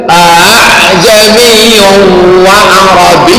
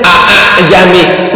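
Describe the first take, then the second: First: "A, A, Jami" chanted with the second A softened and drawn out; correct recited reading. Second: "A, A, Jami" spelt out as separate plain syllables; two separate "A" sounds, then "Jami", unchanted; read as written. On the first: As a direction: recite "A, A, Jami wa Arabi" in long held syllables. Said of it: "Bacanya tak begitu". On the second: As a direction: literal spoken reading of "A, A, Jami". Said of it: "Kalau dibaca tulisannya". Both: Shown as a demonstration.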